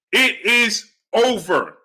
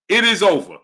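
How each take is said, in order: First: It is over drawn out slowly, each word weighted; slow emphatic. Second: Said in the usual way. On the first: Real, not acted.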